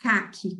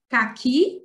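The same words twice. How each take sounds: First: Falling "caque", weight on "ca"; stress on the first syllable. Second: "Caqui" with the final "qui" strong, rising; stress on the last syllable. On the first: (tônica no "ca" inicial) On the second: (tônica no "qui" final) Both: Shown as a demonstration. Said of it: "Coloquei em destaque a sílaba forte".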